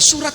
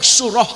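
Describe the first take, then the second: First: The word ends with a t sound. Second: The word ends with an h sound. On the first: The speaker calls it wrong. "tidak boleh dibaca surat karena tak marbutoh" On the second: The speaker calls it right. "yang benar adalah surah Ali Imran"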